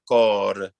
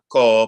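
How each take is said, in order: First: The word ends with a quick flipped R. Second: The word ends on the vowel without an R. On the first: The speaker calls it right. "make sure that we have a little flip at the end" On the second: The speaker calls it wrong. "So it's not co"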